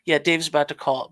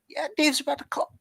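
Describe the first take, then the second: First: The voice sounds normal and steady. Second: The voice cracks and goes out.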